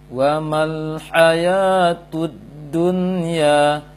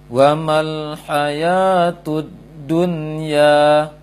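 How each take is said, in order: Both takes have the same delivery.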